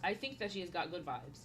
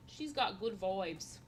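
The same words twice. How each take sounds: First: Said in the usual way. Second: Slow, put-on Australian accent. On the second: Streamer repeating a compliment in a playful Australian accent. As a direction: stretch "vibes" towards "voibes", mock Australian. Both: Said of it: "always talking in different accents".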